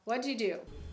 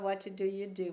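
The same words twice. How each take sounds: First: The words are run together and reduced. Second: Every word is said clearly and in full. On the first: The speaker calls it right. "vai falar" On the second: The speaker calls it wrong. "ninguém fala"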